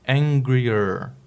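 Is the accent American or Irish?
American. It is said with an American accent.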